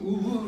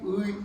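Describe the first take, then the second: First: The vowel stays a plain eu sound. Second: The vowel glides from eu toward i. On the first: The speaker calls it wrong. "따라하다면 임, 으, 으가 돼버려" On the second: The speaker calls it right. "원래 평상시에 ... 의 잘 되거든"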